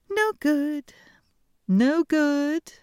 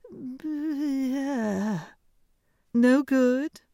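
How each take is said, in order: First: High, loud princess voice; bright haughty princess dismissal; cartoon princess. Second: High, loud princess voice; haughty high princess; cartoon princess. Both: A narrator's reading. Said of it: "said the princess".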